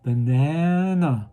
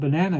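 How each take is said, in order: First: The word is said slowly. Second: The word is said fast.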